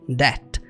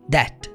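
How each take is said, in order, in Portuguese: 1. O som do b é mudo. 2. O som do b é mudo.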